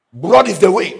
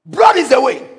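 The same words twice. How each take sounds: First: Said in the usual way. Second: Raised repeat. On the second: Shown as a demonstration.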